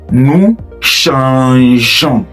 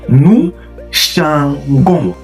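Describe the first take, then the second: First: The g has a soft zh sound. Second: The g has a hard g sound. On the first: The speaker calls it right. "You do the same thing for to change" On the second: The speaker calls it wrong. "which does not sound French"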